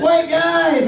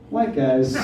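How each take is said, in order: First: It is said in a cheering, celebratory tone. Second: It is said in a scolding, disapproving tone. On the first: "because history is like" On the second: "But sociology's like"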